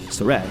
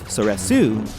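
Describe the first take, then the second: First: The final u vowel is dropped. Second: The final u vowel is clearly sounded. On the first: "two pronunciations based on dialect" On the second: "two pronunciations based on dialect"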